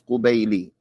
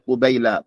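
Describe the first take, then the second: First: The word ends with an i vowel. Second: The word ends without an i vowel. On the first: The speaker calls it right. "This this this this lamb should have a kasra on it" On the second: The speaker calls it wrong. "I said قبيلة"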